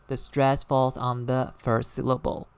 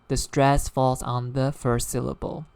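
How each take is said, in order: The two takes are said the same way.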